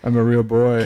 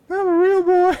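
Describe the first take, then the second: First: It is said in his normal voice. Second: It is said in a Pinocchio voice.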